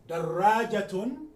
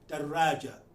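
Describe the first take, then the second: First: The word ends with a full -tun ending. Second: The word ends on a plain a vowel. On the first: This is the full form with every ending pronounced. "I have have tun at the end" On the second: This is how people say it when stopping in speech. "without pronouncing the ta marbuta"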